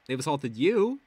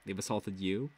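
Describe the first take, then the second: First: They've assaulted you? with a rising, louder YOU; retorting They've assaulted you? with a punched rising you; incredulous question. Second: Said in the usual way. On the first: Shown as a demonstration. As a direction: toss the question back in disbelief.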